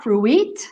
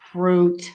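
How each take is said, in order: First: The vowel glides like oo-ee. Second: The vowel is a single oo sound. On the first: The speaker calls it wrong. "It's not fruit" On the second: The speaker calls it right. "That that U I is ooh, not ooey"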